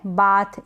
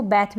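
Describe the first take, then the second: First: बाथ with a long open ah; long-a variant. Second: बैथ with the vowel of cat; flat-a variant. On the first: Teacher gives one correct reading, ah in बाथ. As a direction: open the vowel wide in बाथ. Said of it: "बाथ और बैथ दोनों ही correct". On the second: Teacher gives the other correct reading, ae in बैथ. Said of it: "इसको बैथ भी पढ़ते हैं". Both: Shown as a demonstration.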